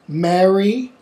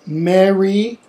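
No difference in how they are said.

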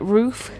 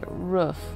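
First: Roof is pronounced the non-Midwest way. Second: Roof is pronounced the Midwest way. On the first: This is how someone else says it. "he says roof, like roof" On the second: This is how people in the Midwest say it. "Roof is just the way we say it in the Midwest"

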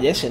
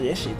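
First: The name is said with English pronunciation. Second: The name is said with Spanish pronunciation. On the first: This is the name in the original version. "En el original se llamaba Jesse" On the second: This is the name in the translated version. "no Jesse"

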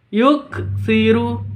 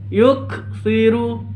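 No difference in how they are said.

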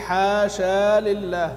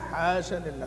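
First: The first word ends in a long vowel. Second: The first word ends in a short vowel. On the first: "ابو عمرو يقول حاشا لله في الوصل" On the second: "فتحه فقط بدون الف"

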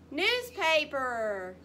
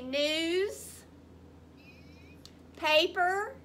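First: The two parts have no pause between them. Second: The two parts have a pause between them. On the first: "Put it together" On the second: "Repeat after me"

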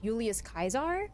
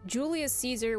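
First: Caesar begins with a hard K sound. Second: Caesar begins with a soft S sound.

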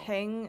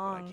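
First: The vowel sounds like 'eng'. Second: The vowel sounds like 'ong'. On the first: The speaker calls it wrong. "It's not Heng" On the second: The speaker calls it right. "it's Hong"

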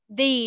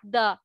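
First: The vowel is long, like 'thee'. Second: The vowel is short, like 'thuh'. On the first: The speaker calls it right. "Tại vì ở đây nó là nguyên âm nên là con sẽ đọc là the" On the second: The speaker calls it wrong. "not the"

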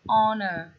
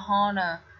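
First: The word starts with a vowel, h silent. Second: The word starts with an audible h sound. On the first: The speaker calls it right. "Nhớ nó là âm câm âm hờ các bạn ha" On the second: The speaker calls it wrong. "Chứ không phải là honor"

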